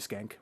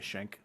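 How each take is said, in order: First: The name is said like 'Skank'. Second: The name is said like 'Schenk'. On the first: The speaker calls it wrong. "we're not going to call you Skank" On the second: The speaker calls it right. "We're going to say Schenk"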